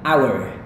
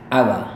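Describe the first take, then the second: First: It is said with an American accent and r. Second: It is said with a British accent, no r. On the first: "ini gaya Amerika" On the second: "gaya British yang mana R-nya biasanya nggak dilafalkan"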